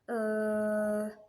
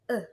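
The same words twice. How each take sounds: First: The vowel is held long and drawn out. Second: The vowel is very short and relaxed. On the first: "if you make long noise" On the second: "if you say the swa sound again"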